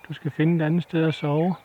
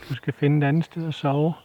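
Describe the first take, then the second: Both takes have the same delivery.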